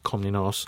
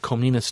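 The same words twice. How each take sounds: First: The name is pronounced in a careful, precise way. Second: The name is pronounced in a casual, everyday way. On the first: The speaker calls it right. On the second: The speaker calls it wrong.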